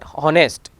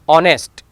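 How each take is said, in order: First: The word starts with an audible h sound. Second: The word starts with a vowel, h silent. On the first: The speaker calls it wrong. "it is not honest" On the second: The speaker calls it right. "Silent when it begin with an H"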